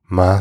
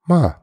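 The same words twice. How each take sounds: First: It is said with the tone meaning mom. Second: It is said with the question-particle tone. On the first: It means mother. "Ma sounds like mom" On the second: It marks a question. "that's just like, oh, it's a question"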